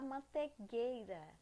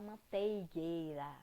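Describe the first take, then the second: First: Mantegueira said without the i, man-te-GUEI-ra as people say it. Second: Manteigueira with a clear ei, mantei-GUEI-ra. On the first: Teacher showing the common mispronunciation mantegueira. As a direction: say mantegueira the careless spoken way. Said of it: "Mas você fala mantegueira". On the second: Teacher giving students the correct form manteigueira. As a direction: say manteigueira carefully with the full ei. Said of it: "Ou você fala manteigueira". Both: Shown as a demonstration.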